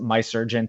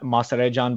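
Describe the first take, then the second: First: The surname is said like the English words 'my surgeon'. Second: The surname is said with its original, non-English pronunciation. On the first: "but I pronounce it My Surgeon to anglicize it" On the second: "it's a play on my last name"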